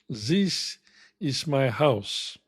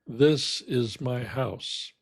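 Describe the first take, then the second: First: The first word starts with a substituted non-th sound. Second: The first word starts with a clear th sound. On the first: The speaker calls it wrong. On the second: The speaker calls it right.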